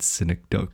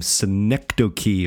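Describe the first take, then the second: First: Synecdoche said SIN-ek-doke; mock mispronunciation. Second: Synecdoche said si-NEK-duh-kee; four-syllable pronunciation. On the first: Host offering a rival way to say it, mock mispronunciation. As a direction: end synecdoche on "doke", with no "kee". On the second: Host introducing the show's odd word, four-syllable pronunciation. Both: Shown as a demonstration. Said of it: "how to say this word properly".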